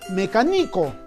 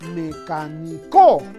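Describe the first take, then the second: First: The stress is on the third syllable. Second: The stress is on the fourth syllable. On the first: "o quizás sea graveoliana ... algo no suena bien" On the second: "Quizás sea aguda ... la mayor fuerza en la co no suena bien"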